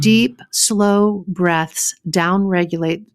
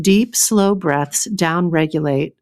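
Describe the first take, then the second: First: Slow first try at a book read; slow tentative book read; slow reading aloud. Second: Slow, savoring read of the line; slowly savoring the book's words; relished book read. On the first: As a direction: start reading the line slowly, testing it. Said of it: "I'm reading straight from their book". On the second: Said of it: "so please enjoy". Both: Shown as a demonstration.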